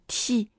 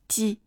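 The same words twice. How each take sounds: First: The t has a strong burst of air. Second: The t has only a slight puff of air. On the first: The speaker calls it wrong. "但是不要发成t" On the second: The speaker calls it right. "我们可以稍微送一点点气流"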